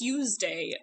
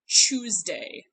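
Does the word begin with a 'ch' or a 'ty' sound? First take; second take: ty; ch. First: The word begins with a 'ty' sound. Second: The word begins with a 'ch' sound. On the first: "past Tuesday" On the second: "goes even further ... all the way to Tuesday"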